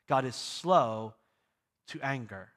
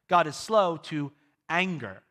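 First: The stress is on the word slow. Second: The stress is on the word anger.

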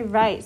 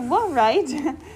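First: The word begins with no W sound. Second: The word begins with a sounded W. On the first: The speaker calls it right. "We say" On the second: The speaker calls it wrong. "The W is silent. So we don't say"

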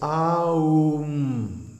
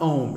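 First: The word is said as three full beats. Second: The word is said as one short syllable. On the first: The speaker calls it right. "each one gets a full beat" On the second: The speaker calls it wrong. "it's not Om"

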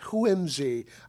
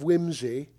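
First: It starts with a breathy H before W. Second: It starts with a plain W sound. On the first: The speaker calls it right. "The H is important" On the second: The speaker calls it wrong. "I forgot to pronounce the H"

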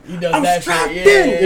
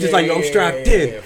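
First: The phrase is yelled loudly. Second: The phrase is said calmly without yelling. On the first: "And then he yelled it" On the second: "He didn't even yell it"

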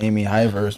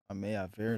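First: The name ends with a 'verse' sound. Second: The name ends with a 'veer' sound. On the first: The speaker calls it wrong. "I was pronouncing that shit way wrong" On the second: The speaker calls it right. "That's how you pronounce it?"

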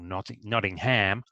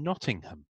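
First: It is said with an American pronunciation. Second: It is said with a British pronunciation.

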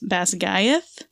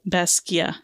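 First: The final th sound is pronounced. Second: The final th sound is silent. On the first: The speaker calls it wrong. "the way that the narrator pronounces it" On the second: The speaker calls it right. "the TH at the end is silent"

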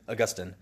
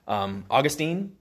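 First: It uses the pronunciation theologians usually use. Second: It uses the common everyday English pronunciation. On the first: "most of the time theologians would say St. Augustine" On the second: "we in our English language, we want to pronounce it Augustine"

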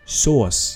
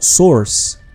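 First: It is said like the word sauce. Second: It is said like the word source. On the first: The speaker calls it right. "the kind of sauce that you put on your ketchup" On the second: The speaker calls it wrong. "not source"

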